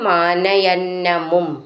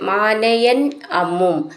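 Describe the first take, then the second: First: The two words are joined into one. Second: The two words are said separately.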